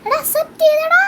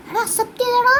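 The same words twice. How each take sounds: First: Much higher, louder yell of joy; excited shout. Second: Excited, higher-pitched announcement. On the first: Gamer yells to viewers that the trade was accepted, thrilled shout. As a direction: scream it out in delight. Repeats it even more thrilled. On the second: Gamer tells his viewers the friend accepted, excited. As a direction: burst out with the good news. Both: Real, not acted.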